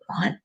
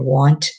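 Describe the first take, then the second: First: The final T sound is dropped. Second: The final T sound is clearly pronounced. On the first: "we don't say the last letter of the word" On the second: "instead of saying want, it more, the T, pronounce the T"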